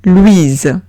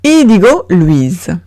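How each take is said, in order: First: Louise as /lwiz/, voiced z; French name Louise. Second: Louise said slowly as /lwiz/, with z; French name Louise. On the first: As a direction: model Louise. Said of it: "Siguiente palabra es Louise". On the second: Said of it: "se pronuncia z". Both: Shown as a demonstration.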